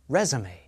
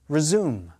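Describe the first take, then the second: First: The stress is on the first syllable. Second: The stress is on the second syllable. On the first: It is a noun: a document sent to employers. "Stress is on the first syllable of the noun" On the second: It is a verb: to start again after a break. "Second syllable of the verb"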